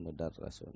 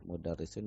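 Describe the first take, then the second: First: "mudarrasun" with an a sound after the doubled r; wrong reading. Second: "mudarrisun" with a clear i sound after the doubled r; correct reading. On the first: Teacher showing the textbook's wrong vowel: "mudarrasun" with a. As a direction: say "mudarrasun", ra not ri. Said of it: "bukan mudarrasun". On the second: Teacher correcting the textbook's vowel: "mudarrisun" with i. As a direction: say "mudarrisun", ri not ra. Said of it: "seharusnya dibaca mudarrisun". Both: Shown as a demonstration.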